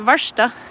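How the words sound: It is said the Oslo Norwegian way, with 'sht'.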